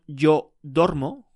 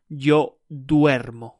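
First: Yo dormo, with a plain o in dormo; wrong form dormo. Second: Yo duermo, slow, with ue in duermo; correct form duermo. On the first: Teacher showing the wrong form, dormo with a plain o. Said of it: "It sounds Italian". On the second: Teacher modelling the right form, duermo slow with ue. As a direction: say duermo slowly, stressing the ue. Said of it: "it's not yo dormo". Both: Shown as a demonstration.

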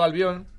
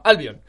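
First: Said in the usual way. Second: "Albion" said ÁL-bion, the stress on the A; "Albion" as ÁLbion, not AlbiÓN; stress on first syllable. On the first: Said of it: "me hacía gracia cambiarle el acento". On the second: Shown as a demonstration. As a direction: put the accent on the A of "Albion". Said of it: "con acento en la A".

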